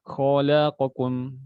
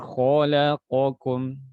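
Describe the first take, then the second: First: The qaf is rushed and cut short. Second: Every letter is given an even length. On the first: The speaker calls it wrong. "Jangan baca" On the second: The speaker calls it right. "Kadang orang baca yang benar"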